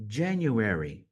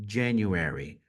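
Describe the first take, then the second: First: "January" said clearly as a model, falling at the end; model pronunciation. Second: "January" repeated low, clear as a model. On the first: Teacher models a month name for students to repeat. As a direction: give a clean model of "January". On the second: Teacher repeats the month name for students to copy. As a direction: say "January" again for them to copy. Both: Shown as a demonstration. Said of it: "saber pronunciar cada um dos meses".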